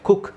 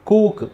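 First: The vowel is short and clipped. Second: The vowel is long and drawn out. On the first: The speaker calls it right. "ಅಂತಲೇ ಹೇಳಬೇಕು" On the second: The speaker calls it wrong. "ಅಂತ ಹೇಳಂಗಿಲ್ಲ"

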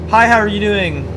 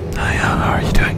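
First: It is said in a normal voice. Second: It is said quietly in a whisper.

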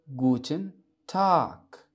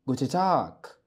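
First: Every syllable is pronounced clearly and fully. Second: The n is dropped and g sounds like k.

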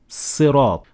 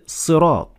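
First: It begins with a light, plain s sound. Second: It begins with a heavy, emphatic s sound. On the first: "turning the Sad into Sin" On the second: "it starts with a Sad"

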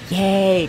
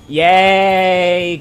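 First: It is said quietly and shyly. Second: It is said with hidden, sarcastic hostility.

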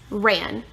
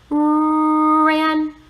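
First: The word is said quickly as one smooth unit. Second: The word is stretched out slowly, sound by sound. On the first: "Say it fast. Yes" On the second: "First you will say rrr. Then you will say an. Do it with me"

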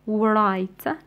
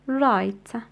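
First: The initial W is pronounced. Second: The initial W is silent. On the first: The speaker calls it wrong. "لا نقول right" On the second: The speaker calls it right. "نقول right"

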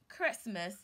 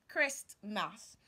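First: The word is said with no 't' sound. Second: The word is said with a 't' sound. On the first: The speaker calls it right. "The letter T is silent. So you say Christmas" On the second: The speaker calls it wrong. "and not Christmas"

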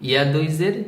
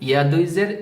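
Both takes have the same delivery.

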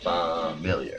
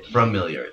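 First: The first syllable has no R sound. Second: The first syllable has an R sound. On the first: The speaker calls it right. "It's F-A-M. Familiar. Like family" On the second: The speaker calls it wrong. "people will say familiar, even though there's no R in that word"

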